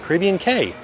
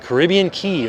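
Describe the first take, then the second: First: Cay is pronounced like the letter K. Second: Cay is pronounced like the word key. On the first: "So it's Key and K" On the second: "So it's Key and K"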